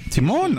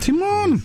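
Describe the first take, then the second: First: The pitch falls at the end, like a statement. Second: It is said with strong, emphatic certainty. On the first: Yes. "afirmación" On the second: Yes, of course. "claro que sí. O sea, doble afirmación"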